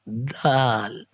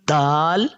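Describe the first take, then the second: First: The letter is released gently and softly. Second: The letter is pressed out hard and forcefully. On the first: The speaker calls it right. "We must read it softly" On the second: The speaker calls it wrong. "Some people read it as dal"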